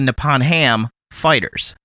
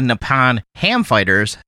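First: The words group as Nippon Ham, then Fighters. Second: The words group as Nippon, then Ham Fighters. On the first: The team belongs to the company Nippon Ham. The speaker calls it right. "They are the" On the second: The team is fighters of ham from Nippon. The speaker calls it wrong. "They are not the"

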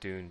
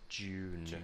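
First: The word is said in a relaxed, low-effort way. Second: The word is said with more careful articulation. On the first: "I would probably say Dune, just because I'm lazy" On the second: "You need to put a little bit more effort in the way you speak if you're going to say June"

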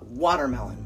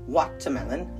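First: The middle consonant sounds like a D. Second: The middle consonant is a clear T. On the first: "in the United States ... Like there's a D in it" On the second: "Some people pronounce it watermelon"

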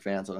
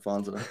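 First: Fanta is said in a standard local pronunciation. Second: Fanta is said in a foreign-accented pronunciation. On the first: This imitates how someone else says it. "she's like" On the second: This is how the speaker and his family say it. "I'm like, ... that's how foreign people say it"

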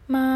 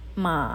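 First: The pitch stays high, level and long. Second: The pitch falls and then rises again. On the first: "ti'i sheng, contohnya a, ma" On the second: "ti san sheng. Contohnya, ada penekanan di tengah-tengah"

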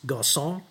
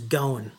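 First: The name is said with its Arabic-style pronunciation. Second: The name is said with a French-friendly pronunciation. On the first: This is the original form of the name. "which is kind of how the Arabic name is pronounced" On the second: This form is easier for French speakers. "so that it could be better pronounced, more easily pronounced, by the French"

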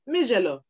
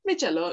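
First: The middle consonant is a 'zh' sound. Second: The middle consonant is a 'ch' sound. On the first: The speaker calls it right. "It comes off as zh most of the time" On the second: The speaker calls it wrong. "it's not Michelo"

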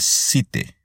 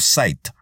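First: It is read with Spanish-style letter sounds. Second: It is pronounced with English sounds.

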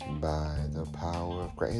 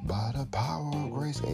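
First: It is said low and monotone without energy. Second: It is said loudly with energy and passion. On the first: The speaker calls it wrong. "It was like real low, monotone" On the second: The speaker calls it right. "It wasn't like"

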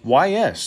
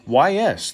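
First: It is spelled out as two separate letters. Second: It is spelled out as two separate letters.

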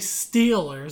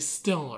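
First: It is said in a standard American accent. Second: It is said in a Pittsburgh accent.

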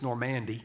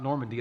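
First: The name is said the local Tennessee way. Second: The name is said the standard way.

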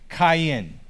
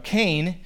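First: The name is said with a Hebrew pronunciation. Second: The name is said with an English pronunciation. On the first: "If you were to try and say it in Hebrew, it would sound something like Cain" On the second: "as we pronounce it in English"

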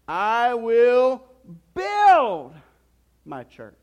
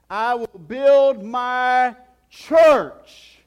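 First: The stress falls on the word "build". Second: The stress falls on the word "church". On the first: "And then you can say it this way" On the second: "And then he says this"

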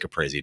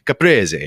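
First: The word is said with a plain English pronunciation. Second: The word is said with an Italian-style pronunciation. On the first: The speaker is not pretending to be Italian. The speaker calls it right. "just say caprese, dude. You're not Italian" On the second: The speaker is trying to sound authentically Italian. The speaker calls it wrong. "those people who go to like the Italian restaurants and they're like"

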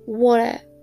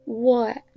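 First: The middle t becomes a glottal stop. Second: The same.

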